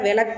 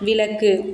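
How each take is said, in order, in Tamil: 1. இது சாதாரண பேச்சு வழக்கில் சொல்லப்படுகிறது. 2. இது முறையான எழுத்து வழக்கில் சொல்லப்படுகிறது. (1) "பேச்சு வழக்கில் விளக்கு அப்படின்னு சொல்கிறாங்க" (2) "எழுத்து வழக்கில்"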